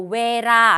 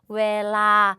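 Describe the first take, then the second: First: The middle consonant is an R-like flap. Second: The middle consonant is a clear L sound. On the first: The speaker calls it wrong. "이거 웨라 아니에요" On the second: The speaker calls it right. "바로 웨라 요렇게 발음을 해주셔야 된다"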